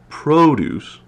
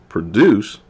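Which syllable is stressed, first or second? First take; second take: first; second. First: The stress is on the first syllable. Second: The stress is on the second syllable. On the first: It is used as a noun. "stress on the first syllable is a noun" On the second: It is used as a verb. "stress on the second syllable is a verb"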